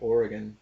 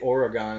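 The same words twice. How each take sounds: First: Oregon is said with the standard pronunciation. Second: Oregon is said with a mocking mispronunciation. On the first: The speaker calls it right. "instead of Oregon" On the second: The speaker calls it wrong. "I gotta say Oregon instead of"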